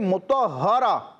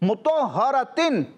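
First: The word ends with a soft h sound. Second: The word ends with a t and n sound. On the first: The reciter stops on this word. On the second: The word is read without stopping.

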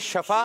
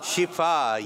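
First: The first vowel is an 'a' sound. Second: The first vowel is an 'i' sound. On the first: The speaker calls it wrong. "जो लोग कहते हैं शफा तो ये तलफ्फुज सही नहीं है" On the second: The speaker calls it right. "आपने कहना है शिफा, ये तलफ्फुज सही है"

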